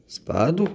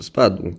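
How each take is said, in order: First: Sharply rising, higher disbelieving question; incredulous echo. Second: Said in the usual way. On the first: Acted. Mother doubting Pamela's explanation, incredulous. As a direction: throw the word back in disbelief.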